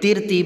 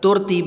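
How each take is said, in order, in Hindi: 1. पहले अक्षर में स्वर i है। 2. पहले अक्षर में स्वर u है। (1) "तिरतीब नहीं पढ़ेंगे" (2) "तुरतीब नहीं पढ़ेंगे"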